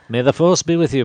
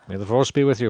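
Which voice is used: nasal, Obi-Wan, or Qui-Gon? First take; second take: Obi-Wan; Qui-Gon. First: A calm, measured impression of an older mentor. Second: A deeper, warmer impression of another mentor. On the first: "That's kind of like an Obi-Wan" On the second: "do it as Qui-Gon"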